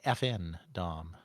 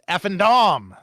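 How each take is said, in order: First: It is said slowly, letters spelled out separately. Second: It is said quickly, letters run together.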